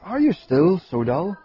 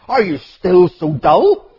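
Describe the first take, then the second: First: It is said in a gentle, patient tone. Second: It is said in a harsh, impatient tone. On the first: The speaker is gently bearing with the listeners. The speaker calls it right. "You read it differently" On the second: The speaker is exasperated with the listeners. The speaker calls it wrong. "you could read those in a very impatient tone of voice ... So we don't read it"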